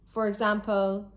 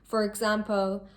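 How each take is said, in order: Both takes have the same delivery.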